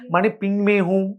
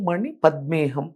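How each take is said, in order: First: The middle word is said as pingme. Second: The middle word is said as padme. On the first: The speaker calls it wrong. "కొంచెం pronunciation రాక" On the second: The speaker calls it right. "కానీ ఓం మణి పద్మేహం"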